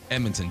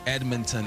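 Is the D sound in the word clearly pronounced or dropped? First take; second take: dropped; pronounced. First: The D sound is dropped. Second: The D sound is clearly pronounced. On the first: The speaker calls it right. "Don't pronounce the D" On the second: The speaker calls it wrong. "yesterday I said Edmonton"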